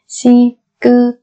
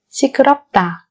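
First: Syllable by syllable. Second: Said in the usual way. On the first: Shown as a demonstration. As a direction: break 시끄럽다 into four spaced syllables. Slow syllable-by-syllable model. (đọc 시끄럽다 chậm, tách từng âm tiết)

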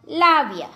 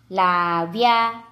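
First: Said in the usual way. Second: લાવ્યા low and drawn out; slow word demonstration. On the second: Shown as a demonstration. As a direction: stretch both syllables of લાવ્યા. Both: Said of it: "જોડણી પર ધ્યાન આપજો".

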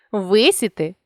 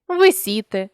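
First: Висіти with ВИ stressed; stress on first syllable. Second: Висіти with СІ stressed; stress on middle syllable. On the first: Teacher shows a stress variant, висіти stressed on ВИ. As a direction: punch the opening ВИ of висіти. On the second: Teacher shows a stress variant, висіти stressed on СІ. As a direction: lean on СІ inside висіти. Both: Shown as a demonstration. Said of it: "наголосивши той чи інший склад".

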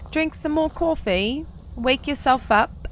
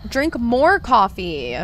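First: Put-on high, slow British accent; lightly put-on British lilt. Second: Slow, drawn-out command; emphatic, elongated nudge; playful urging. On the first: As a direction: urge them on in a playful British accent. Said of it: "I do a British accent". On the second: Pretend. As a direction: stretch each word to urge them on. Urging sleepy viewer to drink coffee.

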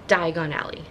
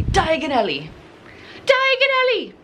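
First: Said in the usual way. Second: Mock British accent, rising to a high shout; hammed-up British Diagon Alley, ending in a yell. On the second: Vlogger imitating how Harry Potter says it, in a British accent. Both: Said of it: "Or as Harry Potter would say".

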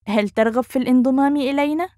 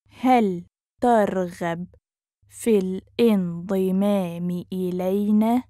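First: Fast question, higher, rising at the end; quick, fluent rising question; natural speed. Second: Measured, careful teaching pace. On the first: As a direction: run the question together, lifting upward. Teacher repeats phrase at speed. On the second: Teacher repeats phrase slowly joined. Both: Shown as a demonstration.

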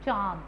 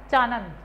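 First: चांद with a nasal vowel, no n; correct nasal pronunciation. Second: चानंद with a full न sound, not nasal; wrong pronunciation. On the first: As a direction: say चांद through nose and mouth together. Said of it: "नासिकीय ध्वनि और मुंह की ध्वनि". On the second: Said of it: "चानंद नहीं होता है". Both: Shown as a demonstration.

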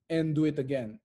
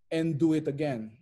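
The two takes are said the same way.

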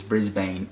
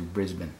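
First: "Brisbane" said BRIZ-bane with full long a; American Brisbane pronunciation. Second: "Brisbane" said BRIZ-bun, weak second syllable; Australian Brisbane pronunciation. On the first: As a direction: say "Brisbane" to rhyme its ending with "rain". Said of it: "it is Brisbane as opposed to". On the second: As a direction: reduce the end of "Brisbane" to an unstressed "bn". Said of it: "as opposed to Brisbane". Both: Shown as a demonstration.

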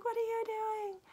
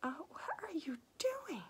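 First: Very high, strained imitation of a distressed woman; acted-out high cry of protest; distressed outcry. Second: Acted-out aghast reaction, half under the breath; appalled disbelief. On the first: Woman seeing all her hats being burned, distressed outcry. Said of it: "and she's like". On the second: Reader talking to the hero the whole time, appalled. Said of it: "the whole time I'm going".

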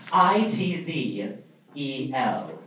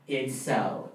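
First: I T Z E L, each letter slowly and separately; curt, slow letter-by-letter spelling; spelled out. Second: Said in the usual way. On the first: Shown as a demonstration. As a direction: spell the name out slowly and deliberately. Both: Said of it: "That is my name".

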